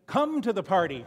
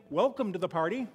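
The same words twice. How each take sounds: First: Louder invitation. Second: Said in the usual way. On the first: Retold or imitated. Granddaughter calling strangers in from the restaurant door, louder. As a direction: Come to the party called out louder, leaning on Come. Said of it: "now she's saying". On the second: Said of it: "instead of saying".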